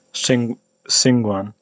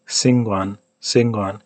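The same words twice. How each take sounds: First: Xinguan with a retracted, sh-like s. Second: Xinguan with a clean, front English s; unretracted s. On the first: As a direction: say Xinguan with the tongue pulled back on the s. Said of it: "I tend to pronounce it retracted". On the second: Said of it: "pronounce it less wrong by not retracting it". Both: Shown as a demonstration.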